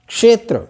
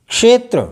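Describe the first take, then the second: The two takes are said the same way.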